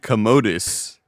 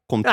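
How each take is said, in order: First: The name ends with a 'dus' sound. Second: The name ends with a 'twa' sound. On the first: The speaker calls it wrong. "you pronounce it Commodus" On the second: The speaker calls it right. "I'm pretty sure it's like Comtois"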